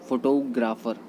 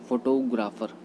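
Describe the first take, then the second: Both takes have the same delivery.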